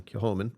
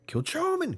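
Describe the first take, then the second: First: Said in the usual way. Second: "Kilchoman" with a hard, high-pitched "cho"; exaggerated pronunciation. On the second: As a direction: blare "Kilchoman" with "ch" as in chow, pitched way up. Tries two pronunciations of name.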